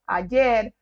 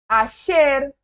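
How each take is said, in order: First: The middle consonant is a 'y' sound. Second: The middle consonant is a 'sh' sound. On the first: This is how it is usually heard elsewhere. "eu era acostumada a falar" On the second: This is how it is said in Argentina. "a gente fala como se fosse um X"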